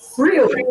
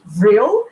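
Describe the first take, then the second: First: The word begins with an F sound. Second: The word begins with a V sound. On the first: "as it is in German, it's pronounced Frill" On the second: "we usually see it written with the V"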